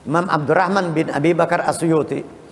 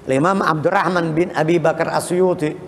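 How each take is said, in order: The two takes are said the same way.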